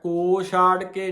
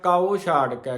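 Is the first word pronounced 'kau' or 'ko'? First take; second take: ko; kau. First: The first word is pronounced as 'ko'. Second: The first word is pronounced as 'kau'. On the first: The speaker calls it wrong. "ਕੋ ਛਾੜ ਕੇ ਨਹੀਂ ਕਹਿਣਾ ਇਹਨੂੰ" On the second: The speaker calls it right. "ਕਉ ਕੱਕਾ ਮੁਕਤਾ, ਊੜੇ ਨੂੰ ਔਂਕੜ"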